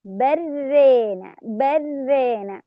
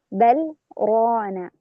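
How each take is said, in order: First: بل ران slow, merged as بران with tilted vowel; Shu'ba's reading; idgham with imala. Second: Slow بل, short stop, then heavy open ران; Hafs's reading; with sakt. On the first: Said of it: "بإدغام اللام في الراء مع إمالة". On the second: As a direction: pause after بل, then full open ران. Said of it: "حفص يقرأ بالسكت". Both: Shown as a demonstration.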